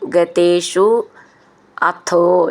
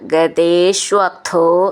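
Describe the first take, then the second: First: The two words are said separately. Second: The two words merge into one word.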